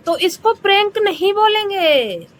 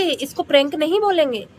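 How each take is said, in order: First: High, insistent "prank नहीं"; "तो इसको प्रैंक नहीं बोलेंगे" with prank high and stressed; emphatic correction. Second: Said in the usual way. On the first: Acted. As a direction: push hard on prank to correct her. Scolding didi emphatically.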